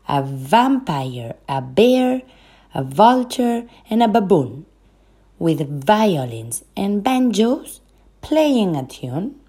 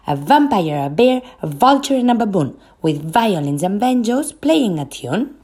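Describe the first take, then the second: First: It is spoken at a moderate pace. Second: It is spoken at a very fast pace.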